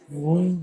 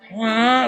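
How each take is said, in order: First: A lower, softer wail, the all clear; gentle all-clear siren. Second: Harsh siren imitation. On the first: Retold or imitated. Showing the interviewer the softer all-clear siren, low and soft. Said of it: "it was more". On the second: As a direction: bark out the warning siren. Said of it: "It wasn't so".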